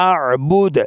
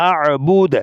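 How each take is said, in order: The two takes are said the same way.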